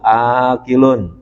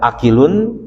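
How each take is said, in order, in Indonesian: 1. Vokal pertama dibaca panjang. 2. Vokal pertama dibaca pendek. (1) "Maka bacanya memang harus panjang jadinya" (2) "Kalau dibaca akilun ya atau akila jadi salah"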